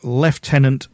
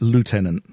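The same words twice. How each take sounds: First: It is said with a British pronunciation. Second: It is said with an American pronunciation.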